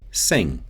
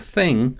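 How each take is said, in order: First: It begins with an s sound. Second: It begins with an unvoiced th sound. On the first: "it often shifts toward an s sound" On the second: "So thing becomes sing"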